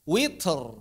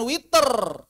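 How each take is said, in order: First: "witr" with a puff of air after t; no vowel between t and r in "witr"; aspirated t running into the r of "witr"; breath on ta. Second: "witr" said as "witerr"; higher, louder "witr" with an added schwa before the r; wrong voiced release. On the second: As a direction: stretch it to "wit-err" with a long rolled r. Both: Shown as a demonstration. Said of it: "bukan witr".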